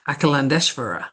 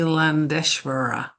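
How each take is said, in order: First: The name is said at normal speed. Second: The name is said more slowly.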